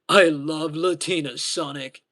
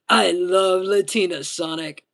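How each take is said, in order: First: It is said in a deeper voice. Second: It is said in a higher voice.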